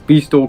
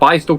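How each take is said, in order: First: The first syllable sounds like 'bee'. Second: The first syllable sounds like 'bye'. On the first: The speaker calls it wrong. "I used to refer to that as B-Stool cutouts" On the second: The speaker calls it right. "I found out it's called Bi-Stool cutouts"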